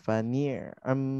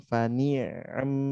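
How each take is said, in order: Both takes have the same delivery.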